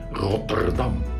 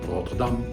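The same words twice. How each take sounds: First: The R is harsh and rasped in the throat. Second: The R is soft and barely pronounced. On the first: This is how it sounds in certain regions. "the R is much harsher, much stronger pronounced" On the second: This is how it sounds in the south. "you get a much softer R"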